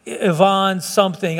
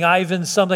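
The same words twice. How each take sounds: First: Ivan said ee-VAHN; foreign-style Ivan. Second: Ivan said EYE-vin; English-style Ivan. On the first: Preacher recalling a Russian man's name, Ivan as ee-VAHN. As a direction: say Ivan with an "ee" start and "vahn" ending. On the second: Preacher unsure of a man's name, Ivan as EYE-vin. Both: Real, not acted. Trying two pronunciations of a name.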